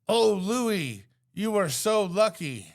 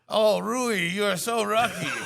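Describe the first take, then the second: First: It is said in the speaker's plain accent. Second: It is said in an imitated Chinese-style accent. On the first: The speaker calls it wrong. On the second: The speaker calls it right.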